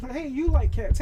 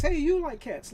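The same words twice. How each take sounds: First: High and loud, stress on like; mock eager hello; excited greeting. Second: High and loud, stress on you; mock eager hello again; excited greeting. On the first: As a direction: call it out, stressing like. Acting out cat-friend greeting. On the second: Same greeting repeated.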